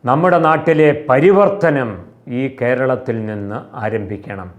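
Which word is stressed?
നാട്ടിലെ. The emphasis falls on the word നാട്ടിലെ.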